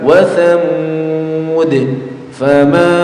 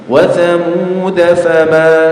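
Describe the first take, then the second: First: The voice stops after thamud, ending on d. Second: The words run on without stopping after thamud. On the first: "kalau diwakafkan" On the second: "kalau dibaca wasol"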